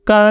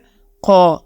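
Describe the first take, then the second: First: The consonant is light, thin and plain. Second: The consonant is heavy, deep and full. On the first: The speaker calls it wrong. "का नहीं कहना" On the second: The speaker calls it right. "मोटी आवाज़ निकाल के कहना है"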